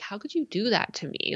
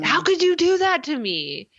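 First: It is said softly and gently. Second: It is said angrily, like Dawson.

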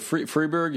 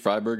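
First: The name is pronounced the French way. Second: The name is pronounced the German way. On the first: "if you're speaking French" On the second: "if you're speaking German"

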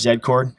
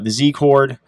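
First: The name is said the Canadian way. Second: The name is said the usual American way.

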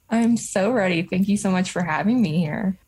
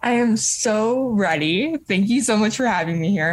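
First: It is said with little enthusiasm. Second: It is said with lively enthusiasm.

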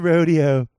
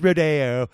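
First: The word is said in an ordinary, plain way. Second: The word is said in a fancy, affected way. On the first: This is the everyday way of saying it. The speaker calls it wrong. "It's not the rodeo" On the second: This is the pretentious, upscale way of saying it. The speaker calls it right. "It's rodeo"

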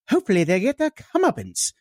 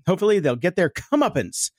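First: It is said in a British accent. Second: It is said in the speaker's usual accent.

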